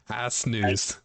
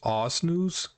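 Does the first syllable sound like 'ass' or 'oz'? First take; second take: ass; oz. First: The first syllable sounds like 'ass'. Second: The first syllable sounds like 'oz'. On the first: The speaker calls it wrong. "he was mispronouncing Anzus" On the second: The speaker calls it right. "it's pronounced Oz news instead of ass"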